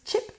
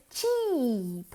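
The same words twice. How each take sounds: First: "chip" with a quick lax i; short I. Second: "cheap" with a long stretched ee. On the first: Teacher showing learners the wrong word, short-vowelled "chip". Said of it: "pero no es chip". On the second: Teacher correcting chip for learners, long-vowelled "cheap". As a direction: hold the vowel of "cheap" well out. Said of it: "con una I larga". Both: Shown as a demonstration.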